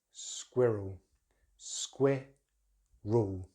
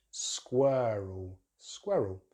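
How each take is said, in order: First: Slow squirrel as SKWIH-rul, two syllables; British pronunciation. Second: Squirrel with an uh-r vowel, SKWUR-ul; American pronunciation. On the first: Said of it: "So in British English". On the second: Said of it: "American English". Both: Shown as a demonstration.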